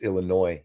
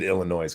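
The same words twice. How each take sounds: First: The final S is silent at the end. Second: The final S is pronounced at the end. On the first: The speaker calls it right. "You don't pronounce the S" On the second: The speaker calls it wrong. "I said Illinois"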